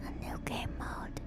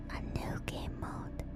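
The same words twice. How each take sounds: The two takes are said the same way.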